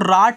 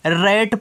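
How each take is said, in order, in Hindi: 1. स्वर एक खुली, लंबी 'aa' ध्वनि है। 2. स्वर एक सपाट 'ae' ध्वनि है, जैसे cat में। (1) "आप इसको राट नहीं पढ़ोगे" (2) "रैट पढ़ोगे"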